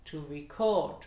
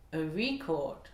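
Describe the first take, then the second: First: CORD stressed in "record", RE kept light; verb stress. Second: RE stressed in "record", CORD falling away; noun stress. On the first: Teacher contrasts verb with noun, stress on CORD in "record". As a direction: punch the last syllable: to re-CORD. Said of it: "sera sur la deuxième voyelle". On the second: Teacher contrasts noun with verb, stress on RE in "record". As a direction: punch the first syllable: a RE-cord. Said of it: "sera sur la première voyelle". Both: Shown as a demonstration.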